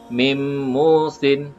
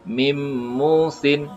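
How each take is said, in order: The two takes are said the same way.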